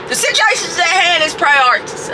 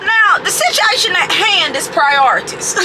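First: Said in the usual way. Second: Slow, weighty announcement; slow emphatic. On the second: Shown as a demonstration. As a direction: lay each word down deliberately.

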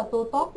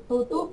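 First: "tu tốt" with an ô vowel and final t; mispronunciation demo. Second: "Tu túc" with a tight u in "túc"; correct pronunciation. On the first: Teacher showing students what to avoid, mistaken "tu tốt". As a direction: swap the ending of "túc" for "tốt". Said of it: "chứ không phải là tu tốt". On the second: Teacher correcting a Korean word for the class, careful "Tu túc". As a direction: say "túc" ending on u plus k, not "tốt". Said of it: "Tu túc chứ không phải là tu tốt". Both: Shown as a demonstration.

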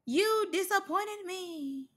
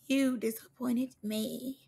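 First: High, slow, soft lament; wounded disappointment. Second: Slow, soft, at normal pitch; solemn disappointment. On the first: Reactor telling off Biggie over fireworks, high slow disappointment. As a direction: draw it out high and hurt. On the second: Reactor telling off Biggie over fireworks, slow subdued disappointment. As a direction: let it sink in slowly and quietly. Repeats the scolding lower, slower. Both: Acted.

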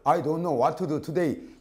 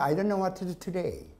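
First: "I don't know what to do today" in full Korean syllables; wrong Korean-style pronunciation. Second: "I don't know what to do today" linked with short alveolar d and t; correct English pronunciation. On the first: Teacher shows what not to do, Korean-accented "I don't know what to do today". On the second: Teacher models it once more, linked English "I don't know what to do today". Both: Shown as a demonstration. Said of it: "이렇게 발음하지 말라는 뜻입니다".

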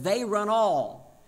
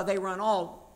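First: Slow, loud "They run all" with the weight on "all"; stress on all. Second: Said in the usual way. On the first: Shown as a demonstration. Preacher quoting the verse to the congregation, slow and emphatic. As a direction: draw out "They run all", leaning on "all" with a falling end. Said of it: "It says". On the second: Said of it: "what it means by".

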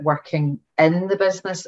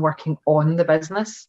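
First: "in" picked out as the key word; stress on "in". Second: "on" picked out against its opposite; stress on "on". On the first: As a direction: lean on "in" to set up a contrast. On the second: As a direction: lean on "on" as the contrasting word. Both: Shown as a demonstration. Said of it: "there's a difference there".

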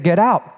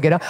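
First: Said in the usual way. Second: Retold calm order. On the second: Angry husband stops the car, orders wife out calmly. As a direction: say the order evenly, without heat. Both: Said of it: "Calmly said".

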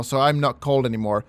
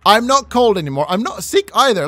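First: Said in the usual way. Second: Higher, louder happy exclaim; excited. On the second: Real, not acted. Player celebrates no longer being cold, excited. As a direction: cheer the relief out loud.

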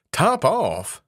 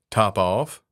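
First: "Top Off?" cried out higher, in disbelief; the mouse can't believe such an odd name; astonished cry. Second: Cool. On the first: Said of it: "cried the mouse". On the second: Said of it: "said the cat quite coolly". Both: Acted.

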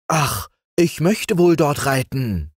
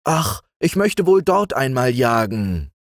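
First: Put-on high, eager boyish wish; lightly acted eager longing. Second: Wistful wish after an "Ach"; lightly acted boyish yearning; sighed longing. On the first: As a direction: wish for it keenly, pitched up. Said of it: "sagte dann Franz eifrig". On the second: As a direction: sigh it out as a wish, pitched up. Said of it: "Und wieder seufzte Franz". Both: A narrator's reading.

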